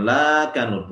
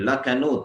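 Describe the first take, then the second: First: The first vowel is drawn out long. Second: The first vowel is cut short. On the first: The speaker calls it wrong. "bukan lakanud, bukan panjang" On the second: The speaker calls it right. "tapi lakanud, pendek"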